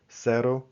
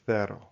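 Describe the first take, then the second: First: The first consonant is an s sound. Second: The first consonant is a th sound. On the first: This is how it is said in Latin America. "Central South America, other countries" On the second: This is how it is said in Spain. "and then Spain"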